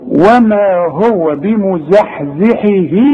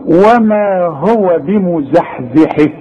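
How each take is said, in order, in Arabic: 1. صوت الهاء الأخيرة فيه حركة ممدودة. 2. صوت الهاء الأخيرة ينتهي بحركة قصيرة، من غير مد. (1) "علشان تمدها عند الوصل" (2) "طب هقف، يبقى ما عنديش مد"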